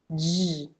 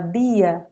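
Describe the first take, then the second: First: The d is said like "dj". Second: The d is said as a plain d. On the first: "esse dj" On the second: "a minha avó fala dia"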